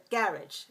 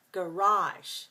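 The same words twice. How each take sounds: First: Garage as GARR-idge, British style; first-syllable stress. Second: Garage slowly as guh-RAHZH; American pronunciation. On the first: Teacher repeating British stress pattern, garage as GARR-idge. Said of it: "two syllables stress the first". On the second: Teacher demonstrating American pattern, garage slowly as guh-RAHZH. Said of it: "pronunciation in America, we say". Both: Shown as a demonstration.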